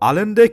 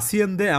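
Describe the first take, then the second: First: The middle consonant is an l sound. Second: The middle consonant is an s-like sound.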